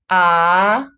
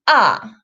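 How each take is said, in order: First: The pitch rises from mid to high. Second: The pitch falls sharply from high to low. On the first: "the second tone, it's going up" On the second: "The fourth tone falls sharply"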